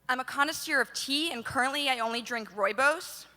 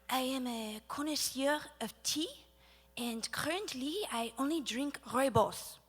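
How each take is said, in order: First: It is said in an American accent. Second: It is said in a French accent.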